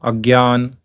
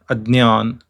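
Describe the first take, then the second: First: The middle cluster sounds like g plus y. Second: The middle cluster sounds like d plus ny. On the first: This is how it is said in North India. The speaker calls it wrong. "in North India it is pronounced as gya" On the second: This is how it is said in Maharashtra. The speaker calls it right. "the right pronunciation is adnyan"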